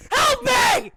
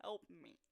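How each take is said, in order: First: High, very loud cry for help; panicked scream. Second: Tiny, barely audible plea; mouthing. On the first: Hurt player begging teammate for help, panicked scream. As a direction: scream it out in hammed-up desperation. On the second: Hurt player secretly begging teammate, mouthed plea. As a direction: mouth the words with almost no voice. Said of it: "I'm literally mouthing". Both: Retold or imitated.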